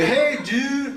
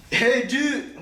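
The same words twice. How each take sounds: First: Higher, laughing surfer-dude greeting; cool lifeguard voice. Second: Higher, laid-back surfer-dude greeting; cool lifeguard voice. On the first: Showing how he plays the lifeguard, breezy laughing greeting. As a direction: play it cool like a lifeguard should. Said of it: "so I gotta, like, play it". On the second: To a swimmer, playing the cool lifeguard, breezy call. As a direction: play the cool lifeguard calling out. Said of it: "I don't actually talk like that". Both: Shown as a demonstration.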